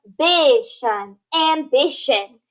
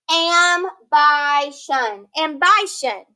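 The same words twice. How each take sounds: First: "Ambition" with a short I, "am-BISH-un", said slowly; correct short I. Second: "Ambition" with a long I, "am-BY-shun", drawn out slowly; wrong long-I reading. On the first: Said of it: "shorten that I to I". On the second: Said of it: "that word's not pronounced ambition". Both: Shown as a demonstration.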